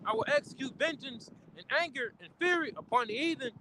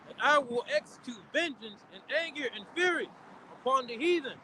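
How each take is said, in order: First: It is read at a faster pace. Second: It is read at a slow pace.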